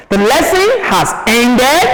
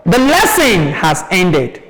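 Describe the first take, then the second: First: "ended" swept up high; questioning rise on "ended"; rising-tone question. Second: Settled fall on "ended"; statement. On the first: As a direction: ask it, lifting the end of "ended". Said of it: "Because of the rising tone". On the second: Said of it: "It's a statement". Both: Shown as a demonstration.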